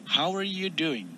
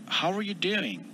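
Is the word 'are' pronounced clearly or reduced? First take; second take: reduced; reduced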